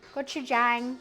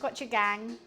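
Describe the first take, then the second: First: The last syllable starts with a 'j' sound. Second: The last syllable starts with a hard 'g' sound. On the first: The speaker calls it right. "It's Jang" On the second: The speaker calls it wrong. "not gang"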